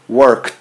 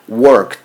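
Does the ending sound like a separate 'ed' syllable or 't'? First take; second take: t; t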